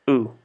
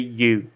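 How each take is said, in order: First: The vowel is a plain u without glide. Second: The vowel begins with a y glide. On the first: The speaker calls it right. "We say just u" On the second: The speaker calls it wrong. "we we we don't say you"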